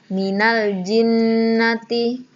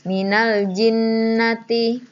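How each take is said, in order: No difference in how they are said.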